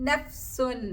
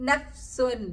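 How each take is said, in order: The two takes are said the same way.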